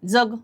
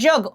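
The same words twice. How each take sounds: First: The first consonant is a dental dz sound. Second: The first consonant is a palatal j sound. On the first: The speaker calls it wrong. "जग नाही" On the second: The speaker calls it right. "इथं येचा उच्चार आहे बघा"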